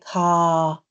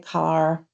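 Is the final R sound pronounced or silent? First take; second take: silent; pronounced. First: The final R sound is silent. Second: The final R sound is pronounced. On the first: "I say car and pour. I drop the R" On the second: "I don't say car"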